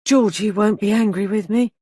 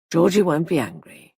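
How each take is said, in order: First: A light hint of a pleading child; mildly childlike, pitiful question; piteous child's voice. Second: Said in the usual way. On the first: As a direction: ask it like a frightened little boy. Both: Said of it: "In a piteous child's voice".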